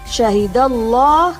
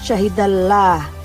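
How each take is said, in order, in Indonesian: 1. Huruf 'l' dibaca tebal, dengan bunyi vokal seperti O. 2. Huruf 'l' dibaca tipis, dengan bunyi vokal seperti A.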